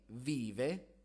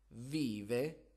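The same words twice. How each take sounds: Both takes have the same delivery.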